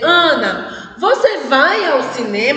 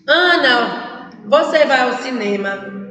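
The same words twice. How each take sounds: First: It is said with a questioning intonation. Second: It is said flat, without question intonation. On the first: The speaker calls it right. "a pessoa tem que dizer" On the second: The speaker calls it wrong. "mas não diz com entonação"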